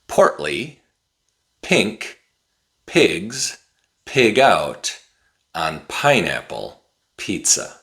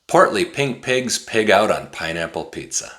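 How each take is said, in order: First: It is said at a somewhat faster pace. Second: It is said at a very fast pace. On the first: "a little bit faster" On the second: "really fast"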